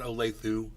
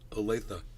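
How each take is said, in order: First: The name is said with the rejected pronunciation. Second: The name is said with the accepted pronunciation. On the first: The speaker calls it wrong. "Not Olathe" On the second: The speaker calls it right. "Like duh, like you said"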